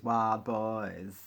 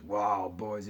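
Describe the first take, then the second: First: Put-on "Wild Boys" in an affected, drawn-out way; affected pronunciation. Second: Put-on "Wild Boys" with the usual full vowels; ordinary pronunciation. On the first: Vlogger joking about the band's name, affected pronunciation. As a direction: stretch both words of "Wild Boys" mockingly. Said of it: "you pronounce it as Wild Boys". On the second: Vlogger showing how not to say it, ordinary pronunciation. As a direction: say "Wild Boys" straight, as normally pronounced. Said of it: "don't pronounce it as Wild Boys". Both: Shown as a demonstration.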